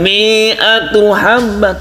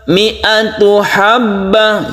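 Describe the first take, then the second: First: The vowel in mi'a is drawn out long. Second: The vowel in mi'a is short. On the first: The speaker calls it wrong. "Jadi bukan mi'atu habbah, tidak" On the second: The speaker calls it right. "tapi pendekkan ya"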